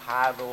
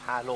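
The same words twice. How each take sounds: First: "พาโล" with R for L, as "pha-ro"; R sound. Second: "พาโล" with a clear L in the last syllable; L sound. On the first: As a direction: say "พาโล" with a tongue-tip ร in the last syllable. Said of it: "ตัวรอเรือเนี่ย". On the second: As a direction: say "พาโล" with ล, not a rolled ร. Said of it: "ตัวรอลิง". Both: Shown as a demonstration.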